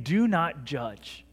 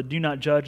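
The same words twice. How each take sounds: First: "Do not judge" said very slowly, each word weighted; slow solemn command. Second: Said in the usual way. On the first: Shown as a demonstration. Pastor quoting Jesus to the church, slow and solemn. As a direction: lay down the command slowly and heavily. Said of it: "he's saying". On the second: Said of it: "word or the".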